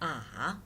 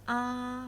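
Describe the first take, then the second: First: The pitch dips down, then rises. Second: The pitch stays high and level. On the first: "It goes down and then up" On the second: "the first tone is a flat tone"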